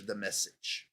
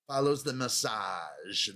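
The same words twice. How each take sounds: First: Said in the usual way. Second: "massage" stressed on its drawn-out second syllable; misplaced emphasis. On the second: Shown as a demonstration. Host showing his wrong emphasis, "massage" stressed late. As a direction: slowly land the weight on the end of "massage". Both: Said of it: "wrong emphasis on the wrong syllable".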